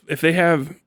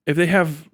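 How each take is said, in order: Both takes have the same delivery.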